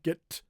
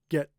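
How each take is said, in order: First: The final T is released with a puff. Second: The final T is held with no release. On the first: The speaker calls it wrong. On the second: The speaker calls it right. "My tongue is still there"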